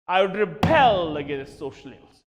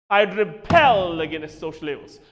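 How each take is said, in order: The two takes are said the same way.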